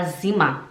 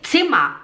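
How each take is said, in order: First: "Zimmer" starting with a buzzed, voiced z; Portuguese-style z. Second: "Zimmer" starting with ts; German z sound. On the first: Teacher shows learners' habit, buzzed-z "Zimmer". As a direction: say "Zimmer" with z as in zebra. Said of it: "a gente fala Zimmer". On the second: Teacher gives the intended word, ts-start "Zimmer". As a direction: open "Zimmer" on a crisp ts. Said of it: "Tipo, em vez de falar". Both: Shown as a demonstration.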